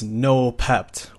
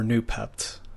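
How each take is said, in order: First: The first syllable sounds like 'no'. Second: The first syllable sounds like 'new'. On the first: "however you want to pronounce it" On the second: "however you want to pronounce it"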